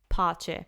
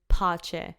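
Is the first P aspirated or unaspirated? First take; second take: aspirated; aspirated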